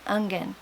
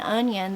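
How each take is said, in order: First: The word begins with the sound 'ung'. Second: The word begins with the sound 'on'. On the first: "they say ungen" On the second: "instead of saying onion"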